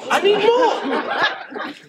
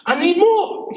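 First: Very slow, high, laughing; drawn-out laughing plea. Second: Loud, high-pitched plea; high demanding voice. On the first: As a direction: stretch it out while laughing. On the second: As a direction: squeal it out, wanting more. Neighbor voiced, demanding more. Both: Retold or imitated.

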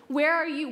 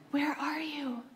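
First: Said in the usual way. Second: Whispered, softer and tender; soft whispered plea. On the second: Pretend. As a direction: breathe the question like a secret. God's question whispered.

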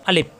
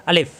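First: আলিফ ending in p, as "alip"; p-ending mispronunciation. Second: আলিফ ending in an airy f; f-ending pronunciation. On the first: Teacher shows the mistake, আলিফ with final p. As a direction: close both lips on a p ending আলিফ. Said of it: "প দিয়ে উচ্চারণ করলে ভুল". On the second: Teacher models correct articulation, আলিফ with final f. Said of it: "ফ দিয়ে যদি আলিফ উচ্চারণ করি তাহলে হয় সঠিক". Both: Shown as a demonstration.

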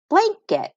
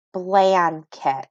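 First: Said in the usual way. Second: Blanket drawn out, blan and ket apart; sounded out syllable by syllable. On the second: Shown as a demonstration. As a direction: say blanket slowly in two separate parts. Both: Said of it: "Sound it out with me".

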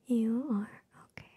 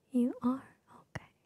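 Both takes have the same delivery.

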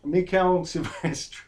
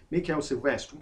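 First: "Mikel Silvestre" drawn out slowly and louder, said the French way; half-laughing, slow, exaggerated French "Mikel Silvestre"; French-style name. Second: Said in the usual way. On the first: Shown as a demonstration. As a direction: stretch out "Mikel Silvestre" with a mock French flourish. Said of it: "why did I say that? I couldn't keep a straight face". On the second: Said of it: "why did I say that?".

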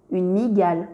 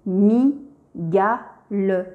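First: Said in the usual way. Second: Slow, split into mi, ga, le; each syllable of "mi-ga-le" said apart, slowly. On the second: Shown as a demonstration. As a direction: sound out "mi-ga-le" slowly for a child. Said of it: "Je lis".

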